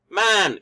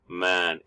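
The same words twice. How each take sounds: First: "man" held on a higher, level pitch. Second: "man" on a lower, falling pitch. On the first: Teacher demonstrating Mandarin tones, "man" said higher. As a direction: say "man" with the high tone. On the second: Teacher demonstrating Mandarin tones, "man" said lower. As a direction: say "man" with the low tone. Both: Shown as a demonstration. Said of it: "depending on its pitch".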